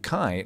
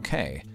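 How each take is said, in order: First: The name's vowel rhymes with 'eye'. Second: The name's vowel rhymes with 'day'. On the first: The speaker calls it right. "my name is pronounced like Kai" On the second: The speaker calls it wrong. "not Kay"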